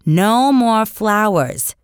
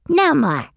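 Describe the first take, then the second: First: Slow, firm warning, each word weighed; stern mother. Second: Put-on high babyish parroting of no more; a toddler copying his mother; toddler echoing. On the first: Acted. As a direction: lay down the law to a toddler. Mother scolds toddler Fudge. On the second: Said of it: "Fudge repeated".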